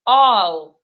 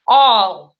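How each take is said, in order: First: The vowel is rounded, sounding close to o. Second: The same.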